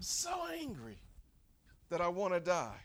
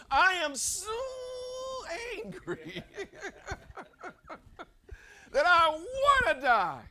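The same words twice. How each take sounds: First: Understated take on Jonah's anger; mildly acted anger. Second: Loud, high, drawn-out enraged shout; acted angry outburst. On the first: Jonah letting God know his anger, mildly angry. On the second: Jonah telling God how angry he is, furious shout. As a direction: play Jonah bellowing his anger at God. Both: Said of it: "just how angry he is".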